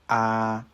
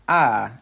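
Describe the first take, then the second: First: The vowel is held long at a level pitch. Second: The vowel starts high and falls in pitch. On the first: "Vowels can also be long" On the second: "as well as a high tone"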